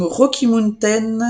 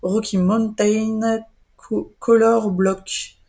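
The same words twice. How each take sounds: First: Self-conscious English accent on the name, quick first try; clumsy English pronunciation of "Rocky Mountain". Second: Slow careful English accent retry; English accent, deliberately spelling out "Rocky Mountain" slowly. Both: Real, not acted. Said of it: "j'ai mon accent anglais qui est pourri".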